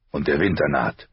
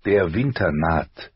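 First: Lightly voiced father, matter-of-fact; stern father. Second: Slow narrated family motto; solemn motto. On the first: Husband reminds wife of coming winter, lightly stern father. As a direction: close the argument as the father, understated. Father ends with the family motto. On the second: Narrator quotes the house's words, slow solemn motto. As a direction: spell out the motto slowly, word by word. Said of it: "lauteten die Worte der Starks". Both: A narrator's reading.

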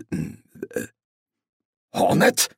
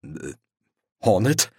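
First: Urgent whisper of the name; hissed. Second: Said in the usual way. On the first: Acted. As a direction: hiss it sharply under the breath. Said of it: "zischte er".

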